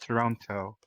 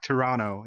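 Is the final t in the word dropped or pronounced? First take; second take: pronounced; dropped. First: The t after the n is clearly pronounced. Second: The t after the n is dropped. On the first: This is the expected pronunciation. "instead of" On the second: This is how some people casually say it. "I've heard people saying like"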